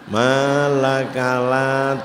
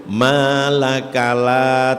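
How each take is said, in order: The two takes are said the same way.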